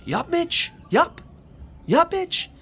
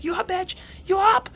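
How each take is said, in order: First: High, loud wake-up call; imitating a father yelling out; imitated dad's yell. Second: Very high shouted wake-up call; escalating mock shout, pitched way up; imitated louder yell. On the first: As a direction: call upstairs-downstairs like Dad rousing a kid. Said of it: "He'd yell out like that". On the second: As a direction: imitate a hard-of-hearing dad yelling louder. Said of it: "yelling a bit louder".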